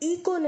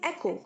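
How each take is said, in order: First: The first vowel sounds like 'ee' in see. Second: The first vowel sounds like 'e' in bed. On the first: The speaker calls it wrong. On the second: The speaker calls it right.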